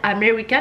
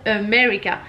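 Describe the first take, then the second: First: The first vowel sounds like an A. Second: The first vowel sounds like an E. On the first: The speaker calls it wrong. "Faut pas dire America" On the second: The speaker calls it right. "ça se prononce avec un E"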